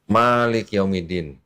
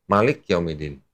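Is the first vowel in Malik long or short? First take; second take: long; short. First: The first vowel of Malik is drawn out long. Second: The first vowel of Malik is said short. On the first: "ma-nya agak panjang" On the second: "bacanya cepat"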